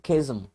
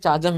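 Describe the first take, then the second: First: The word begins with a 'khe' sound. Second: The word begins with a 'cha' sound. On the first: The speaker calls it right. "ये है खेजम" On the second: The speaker calls it wrong. "ना तो चाजम है"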